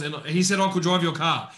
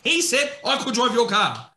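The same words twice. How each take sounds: First: Said in the usual way. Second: He said, louder and higher in disbelief; repeating the kid's claim, outraged; incredulous repeat. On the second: Retold or imitated. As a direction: punch "He" as if it can't be true.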